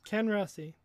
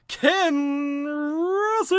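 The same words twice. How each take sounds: First: It is said quickly and flatly. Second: It is said with lively enthusiasm.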